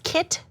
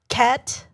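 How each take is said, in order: First: The vowel is unshifted, a plain short i. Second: The vowel is shifted lower, Californian-style. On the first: "the easiest ones are the words kit" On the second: "which should be turned into cat"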